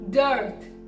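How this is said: The r sound after the vowel is pronounced. "Americans pronounce it, pronounce this word as dearth"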